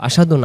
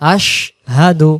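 First: The word is rushed with the sh clipped. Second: The sh is held fully before hadu. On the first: The speaker calls it wrong. "আশহাদু না। আশহাদু বললে এখানে শিনক্ষর পরিপূর্ণ আদায় হয় না" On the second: The speaker calls it right. "আগে বলে নেব আশ, এরপর হাদু"

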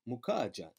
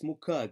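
First: The middle consonant is a soft j-like sound. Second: The middle consonant is a hard g sound. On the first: The speaker calls it wrong. "you may or may not mispronounce that as a soft G" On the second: The speaker calls it right. "No, it's Mukaga, as in Malaga"

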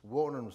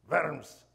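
First: The word starts with a w sound. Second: The word starts with a v sound. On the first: The speaker calls it wrong. "no se dice worms" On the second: The speaker calls it right. "sino verms"

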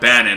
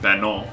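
First: The name is said in a plain English way. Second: The name is said in a French-sounding way.

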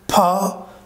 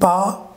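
First: The p is released with a puff of air. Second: The p is released without a puff of air. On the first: "in the right side, I am saying pa" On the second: "Here, I am saying pa"

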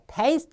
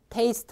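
First: The vowel is said exaggerated and forced. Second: The vowel is said relaxed and natural. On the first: The speaker calls it wrong. "하면 안 되고요" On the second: The speaker calls it right. "편하게 그냥 우리가 하듯이 그냥 테이스트 하면 됩니다"

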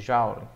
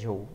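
First: It is said the way many people say it. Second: It is said with the standard pronunciation. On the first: The speaker calls it wrong. "algumas pessoas chamam de joule" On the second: The speaker calls it right. "a pronúncia correta é joule"

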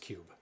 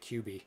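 First: The name is said as one single syllable. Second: The name is said as two separate letters. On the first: The speaker calls it right. "It's Cube" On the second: The speaker calls it wrong. "I pronounced it QB. I was corrected"

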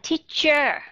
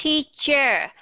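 No difference in how they are said.

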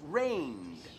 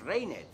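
First: The ending is only a short d sound. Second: The e is pronounced as an extra syllable. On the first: The speaker calls it right. "Esta E no se pronuncia, es rained" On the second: The speaker calls it wrong. "No decimos rained"

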